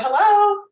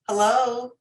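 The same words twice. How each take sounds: First: The voice is pitched high and tense. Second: The voice is pitched low and calm. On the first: The caller sounds emotional or anxious. The speaker calls it wrong. "when we get emotional, our tone of voice goes up" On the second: The caller sounds calm and in control. The speaker calls it right. "you talk on the out breath"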